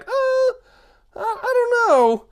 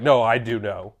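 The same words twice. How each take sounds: First: Very high, hesitant squeak; doubtful group. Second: Low, soft self-assurance; smug know-it-all. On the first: The group doubting the smart guy, squeaky hesitation. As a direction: stall doubtfully in a tiny high voice. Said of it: "And we're like". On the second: Smart guy answering the doubters, smug certainty. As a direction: correct them smugly in a lower voice. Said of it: "And then he's like". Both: Acted.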